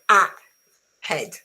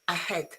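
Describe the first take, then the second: First: The first vowel is a full, stressed sound. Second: The first vowel is a weak schwa sound. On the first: The speaker calls it wrong. "Remember that is not a head" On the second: The speaker calls it right. "there is no stress at the beginning, and therefore on this vowel is pronounced with a schwa"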